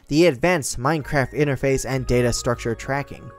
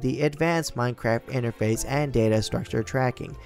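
First: It is spoken in a natural, everyday voice. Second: It is spoken in a put-on character voice.

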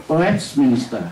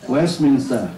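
No difference in how they are said.

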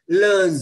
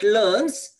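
First: The word ends with a voiced z sound. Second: The word ends with a voiceless s sound. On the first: The speaker calls it right. "So S is pronounced as Z" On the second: The speaker calls it wrong. "Not learns"

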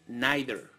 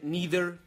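First: Neither is said with a British pronunciation. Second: Neither is said with an American pronunciation. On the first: "En el inglés británico tienen a bien pronunciar esta palabra como neither" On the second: "corresponde al inglés americano"

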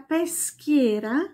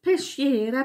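First: The middle consonant is pronounced like 'sk'. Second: The middle consonant is pronounced like 'sh'. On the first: The speaker calls it right. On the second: The speaker calls it wrong.

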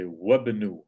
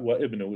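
First: The glottal stop is dropped, joining wa to bnu. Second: A glottal stop is pronounced between wa and ibnu. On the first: The speaker calls it right. "I go straight to the ba" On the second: The speaker calls it wrong. "not wa ibnu"

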